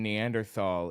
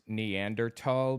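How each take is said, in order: First: The middle consonant is a th sound. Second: The middle consonant is a plain t sound. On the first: "the English anglicization" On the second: "pronounced Neanderthal because Germans don't have a T H sound"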